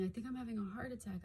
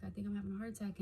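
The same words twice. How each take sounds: First: Mildly panicked, fast. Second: Said in the usual way. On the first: Retold or imitated. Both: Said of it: "I was saying".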